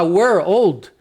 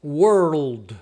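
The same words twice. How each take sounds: First: Put-on "world" said oddly as "were-old"; slow, strange "world" with a full "old" in it; two-word mispronunciation. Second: Slow "world" with curled R, loose L, mute D; lower, drawn-out "world" with R flowing into L; correctly joined sounds. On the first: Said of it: "Fica estranho". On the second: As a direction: blend "world" slowly in one syllable, lower. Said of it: "pronunciando desse jeito". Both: Shown as a demonstration.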